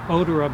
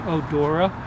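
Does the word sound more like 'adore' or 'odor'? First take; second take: odor; adore. First: It is said to sound like 'odor'. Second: It is said to sound like 'adore'. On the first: It is linked to the plant's scent. "I always say odora because it's referring to the odor of the plant" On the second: It is linked to adoring the plant. "most people say odora, I guess because they adore the plant"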